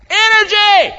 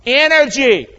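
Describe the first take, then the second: First: High, loud shouted energy; scream it out. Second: Said in the usual way. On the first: Shown as a demonstration. Preacher urging the church to scream it out. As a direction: belt the word out to the crowd. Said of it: "can you scream it out". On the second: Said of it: "Can you say energy with me".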